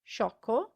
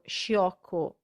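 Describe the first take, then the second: First: No I sound is heard after the sh. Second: An I sound is heard after the sh. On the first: The speaker calls it right. "the I is silent" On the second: The speaker calls it wrong. "it's not sciarpa or sciocco"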